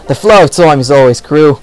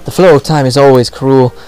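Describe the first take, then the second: First: It is read in a put-on Australian accent. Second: It is read in the speaker's ordinary accent.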